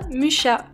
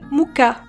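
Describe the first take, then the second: First: The name is said in a non-Czech way. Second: The name is said close to the Czech way. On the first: The speaker calls it wrong. "ça ne se prononce pas Mucha" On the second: The speaker calls it right. "La prononciation tchèque se rapproche plus de Muka"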